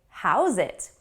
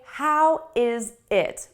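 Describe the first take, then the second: First: The words are linked into one word. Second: Each word is said separately and fully. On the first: The speaker calls it right. "It sounds like one word. The sounds connect" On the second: The speaker calls it wrong. "we don't say"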